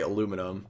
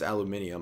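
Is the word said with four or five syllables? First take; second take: four; five. First: The word is said with four syllables. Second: The word is said with five syllables. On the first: This is the speaker's habitual way of saying it. The speaker calls it wrong. "I always say aluminum" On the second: This is considered the correct way of saying it. The speaker calls it right. "it's aluminium, I think is the correct way to pronounce it"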